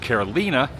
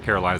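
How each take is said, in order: First: It is said with a Spanish pronunciation. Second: It is said with an American English pronunciation. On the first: This is how locals say it. The speaker calls it right. "but here it's Carolina" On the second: This is how it is said in the US. The speaker calls it wrong. "Carolina is how you would pronounce it in the U S"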